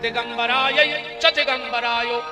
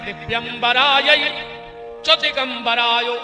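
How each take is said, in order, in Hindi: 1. पहला शब्द 'digam' की ध्वनि से शुरू होता है। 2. पहला शब्द 'divyam' की ध्वनि से शुरू होता है। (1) "आदमी जल्दी जल्दी में कहते" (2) "शुद्ध उच्चारण है"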